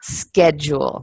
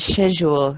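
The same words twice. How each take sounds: First: It is said with an American accent. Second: It is said with a British accent. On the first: "But in American English, it's a schedule" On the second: "if you were British, you would say my schedule"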